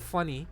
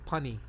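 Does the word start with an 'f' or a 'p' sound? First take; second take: f; p. First: The word begins with an f sound. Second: The word begins with a p sound. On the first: "instead of funny"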